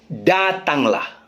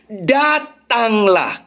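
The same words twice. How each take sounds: First: Quieter, slow "Datanglah"; a softer, lingering "Datanglah"; soft emphasis. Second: Drawn-out, stressed "Datanglah"; emphatic come. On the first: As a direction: drop the voice and stretch "Datanglah". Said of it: "Itu penekanan". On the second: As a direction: stretch "Datanglah" slowly, each syllable weighted. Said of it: "Karena penekanannya". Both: Shown as a demonstration.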